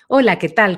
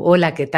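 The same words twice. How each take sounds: First: It is said with a medium, central timbre. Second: It is said with a deep, back timbre.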